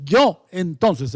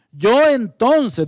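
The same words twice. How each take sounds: First: Said in the usual way. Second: "Yo" punched higher and louder, said slowly; stress on yo. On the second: Shown as a demonstration. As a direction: hit the word "Yo" hard. (acento fuerte en "Yo") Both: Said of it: "esto no es un agregado".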